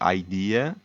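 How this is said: It is pronounced the English way. The speaker calls it wrong. "If you thought that word was in English, you would have pronounced it as"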